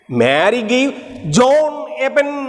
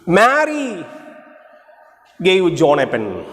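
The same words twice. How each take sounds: First: The stress is on John. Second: The stress is on Mary.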